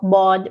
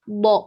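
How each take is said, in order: First: The sound is not pressed from the tongue's sides. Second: The sound is pressed from the tongue's sides. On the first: The speaker calls it wrong. "Some of my younger students say bod" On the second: The speaker calls it right. "So this is bod"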